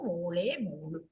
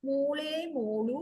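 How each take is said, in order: First: Lower, quicker echo of മോളെ, മോളു; low repeat. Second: Slow, tender pet-name call with a rise; drawn-out loving call; fond calling. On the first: Parents repeating the daughter's pet name, lower and settled. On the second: Parents recalling how they call their daughter, slow and fond. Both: Acted. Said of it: "ഞങ്ങളുടെ മോളിനെ ... വിളിക്കാറുള്ളൂ".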